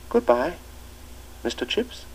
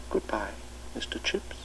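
First: Put-on higher boy's treble goodbye, spoken out; the new boy calling back at the front door; shrill treble. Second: "Goodbye, Mister Chips" breathed as a whisper; a memory whispered in his mind; whispered echo. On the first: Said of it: "answer came in a shrill treble". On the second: A narrator's reading. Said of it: "echoing along the corridors of his mind".

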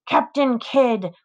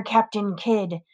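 First: Slow sing-song taunt on Captain. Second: Taunting. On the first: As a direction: stretch Captain Kidd out mockingly. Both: A narrator's reading. Frankie taunting with pirate name.

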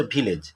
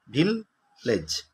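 First: Said in the usual way. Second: "ভিললেজ" slowly split as ভিল, gap, লেজ; teacher sounding out "ভিললেজ" in two slow beats; broken into syllables. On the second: Shown as a demonstration. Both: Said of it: "ভাঙলে কি হবে?".

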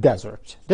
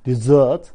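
First: Desert as the noun, DEsert, first syllable stressed. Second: Desert as the verb, deSERT, second syllable stressed and a bit louder; stress on SERT. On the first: Teacher shows the noun desert to students, stress on DE. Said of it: "لو أنا حطيت الاسترس على المقطع الأول". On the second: Teacher shows the verb desert to students, stress on SERT. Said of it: "لو أنا حطيت الاسترس على المقطع التاني". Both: Shown as a demonstration.

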